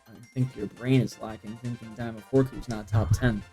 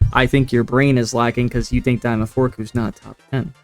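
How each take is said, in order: First: It is said at normal volume. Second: It is said loudly.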